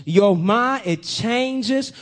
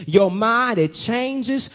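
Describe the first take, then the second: No difference in how they are said.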